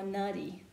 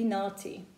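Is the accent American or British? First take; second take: American; British. First: American accent with a closed vowel and a D. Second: British accent with an open vowel and a T. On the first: "Americans, they don't make T sound, they make a D sound" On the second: "in British English, it will be naughty"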